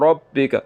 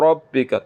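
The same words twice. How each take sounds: No difference in how they are said.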